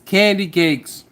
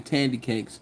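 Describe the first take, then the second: First: The first word begins with a K sound. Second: The first word begins with a T sound. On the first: The speaker calls it right. "but it's candy cakes" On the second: The speaker calls it wrong. "I always say tandy cakes"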